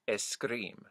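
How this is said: An eh vowel comes before the s sound. "in most Spanish speaking accents I've heard, it's preceded by an eh"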